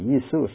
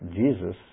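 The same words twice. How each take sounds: First: The word begins with a Y sound. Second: The word begins with a J sound. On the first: This is the old, original pronunciation. "used to say Jesus" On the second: This is the later, changed pronunciation. "not Jesus"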